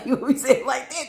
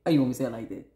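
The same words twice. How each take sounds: First: High, fast, laughing put-on voice; high silly take. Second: Acted low, level demand; low-voiced take. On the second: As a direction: drop it low, falling at the end. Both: Shown as a demonstration.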